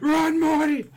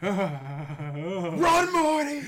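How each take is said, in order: First: Much louder high yell; loud shout. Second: High shout of Run, Morty. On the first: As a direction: scream it out at full volume. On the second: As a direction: yell it in panic. Shouted cartoon quote. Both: Retold or imitated.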